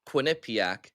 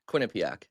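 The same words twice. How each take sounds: First: The middle syllable nip is stressed. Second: The middle syllable nip is not stressed. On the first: Another person said it this way. "You said Quinnipiac, ... you said it like nip, like in the middle" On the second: The speaker says it this way. "I'm saying Quinnipiac"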